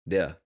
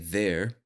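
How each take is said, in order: First: The final R sound is dropped. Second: The final R sound is clearly pronounced. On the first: "somebody from the South might say de" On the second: "When I say there"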